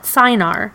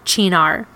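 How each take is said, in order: First: The word begins with an 's' sound. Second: The word begins with a 'ch' sound. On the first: The speaker calls it wrong. "you'll often hear people call it Cynar. And although that's not correct" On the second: The speaker calls it right. "it's not spelled Chinar. It's Italian"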